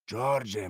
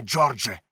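First: Mock-gentle address. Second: Джордже shouted loud with a hard falling end; angry shout. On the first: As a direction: soften the name Джордже with mock sweetness. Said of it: "крикнув кухар". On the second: Acted. Silver warning George, Джордже shouted loud. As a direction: bark the name Джордже as a last warning. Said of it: "крикнув він".

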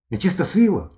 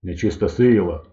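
First: Put-on high-pitched wondering boy; boy pitched up, offering a guess; boy's question. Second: Slow, lightly deepened doctor's voice; understated bass pronouncement. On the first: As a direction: ask it high, as a persistent boy. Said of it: "спитав він". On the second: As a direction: boom it slowly, a bit lower. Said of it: "пробасила". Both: A narrator's reading.

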